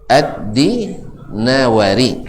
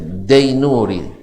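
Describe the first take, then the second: First: The name starts with 'ad' and ends 'nawari'. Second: The name starts with 'dai' and ends 'nuri'. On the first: The speaker calls it right. "yang aslinya adalah Ad-Dinawari" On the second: The speaker calls it wrong. "Itu adalah kesalahan dari dulu"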